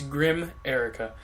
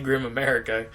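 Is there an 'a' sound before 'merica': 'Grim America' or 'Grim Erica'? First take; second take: Grim Erica; Grim America. First: It is said without the extra 'a': 'Grim Erica'. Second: It is said with an extra 'a' sound: 'Grim America'. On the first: The speaker calls it right. "but it's Grim Erica" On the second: The speaker calls it wrong. "I keep saying that wrong. I want to say Grim America"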